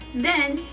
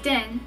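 First: The word begins with a soft 'th' sound. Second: The word begins with a hard 'd' sound. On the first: "the TH sound" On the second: "is now a D sound"

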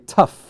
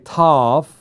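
First: The vowel is cut short. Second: The vowel is drawn out long. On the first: The speaker calls it right. "you say tough" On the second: The speaker calls it wrong. "You don't say tough"

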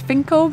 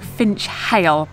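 First: The name is said unlike its spelling. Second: The name is said just as it is spelled. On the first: This is how the locals say the name. The speaker calls it right. "Finchale is pronounced as" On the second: This is how the name looks in writing. The speaker calls it wrong. "it definitely looks like"

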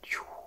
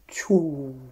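First: The final vowel is subvocal, barely voiced. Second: The final vowel is clearly voiced and heard. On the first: "on fait subvocal" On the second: "on le dit de façon à entendre la voyelle OU"

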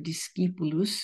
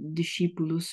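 First: It is said in the ancient pronunciation. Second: It is said in the later, non-ancient pronunciation.

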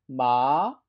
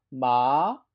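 First: The pitch rises from mid to high. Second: The same.

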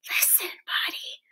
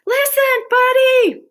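First: It is whispered softly. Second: It is yelled loudly.

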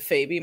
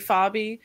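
First: The name has an Americanized pronunciation. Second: The name has an Italian-style pronunciation. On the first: This is the everyday adapted form of the name. "we're so Americanized that it's just been Fabi my whole life" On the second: This is the name's original family form. "since, like, I come from Italian-American descent, it should be Fabi"

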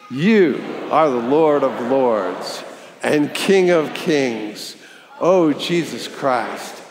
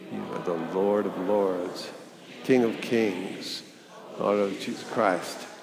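First: It is said with lively, spirited energy. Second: It is said calmly, without extra energy.

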